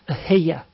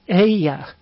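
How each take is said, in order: First: The word is said with a middle h sound. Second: The word is said without a middle h sound.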